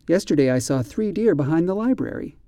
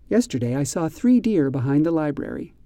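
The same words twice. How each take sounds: The two takes are said the same way.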